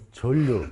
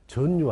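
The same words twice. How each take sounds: First: 전류 said as "절류"; ㄹㄹ pronunciation. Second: 전류 misread as "전뉴"; wrong ㄴㄴ pronunciation. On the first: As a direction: say 전류 with the ㄴ turned into a long L. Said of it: "니은 다음에 리을로 오면 얘를 리을로 읽어야". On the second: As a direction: say 전류 with a double N. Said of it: "하지 말란 말이야". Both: Shown as a demonstration.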